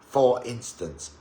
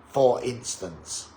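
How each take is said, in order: No difference in how they are said.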